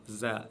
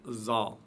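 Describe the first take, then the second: First: The z is light, with no heavy backing. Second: The z is heavy, with a backed, thick sound. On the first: The speaker calls it right. "C'est le Z de la langue française prononcé légèrement" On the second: The speaker calls it wrong. "et non pas"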